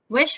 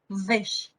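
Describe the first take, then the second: First: It is said with a plain English w. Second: It is said with a German-accented w sound.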